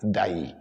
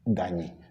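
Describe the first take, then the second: First: The name is said without an n sound. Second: The name is said with an n sound. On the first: This is how the spelling reads. "it is spelled D A Y I" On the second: This is how people actually call it. "we are calling Danyi"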